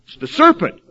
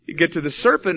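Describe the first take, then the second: First: High, loud mock-whiny blame of "serpent"; mocking whiny excuse. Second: Said in the usual way. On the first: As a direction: pass the blame in a silly high voice. Mocking excuse voiced in sermon.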